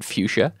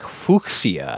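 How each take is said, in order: First: The first part does not sound like Fuchs. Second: The first part sounds like the name Fuchs. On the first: It is the usual everyday pronunciation. The speaker calls it wrong. "than fuchsia" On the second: It keeps the sound of the botanist's name. The speaker calls it right. "So it should be like fuchsia, I guess, it would be more accurate"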